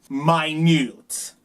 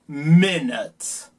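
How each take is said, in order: First: The u is a long 'you' sound. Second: The u is a short 'uh' sound. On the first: "El sonido largo de la U es U, el nombre de la letra" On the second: "El sonido corto de U es A"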